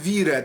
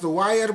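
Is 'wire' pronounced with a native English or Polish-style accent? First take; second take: Polish; English. First: It is said with a Polish-style pronunciation. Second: It is said with a native English pronunciation. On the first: This is how the presenter actually says it. The speaker calls it wrong. "to mówi pan wire" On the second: This is how the word should be said. The speaker calls it right. "zamiast wire powiedzieć"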